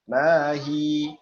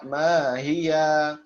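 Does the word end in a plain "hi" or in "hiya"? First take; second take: hi; hiya. First: The word ends on a long "hi" vowel. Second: The word ends with an added "ya" syllable. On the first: The speaker calls it right. "Pertama disukunkan terlebih dahulu ia aslinya" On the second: The speaker calls it wrong. "Tidak dibaca mahia"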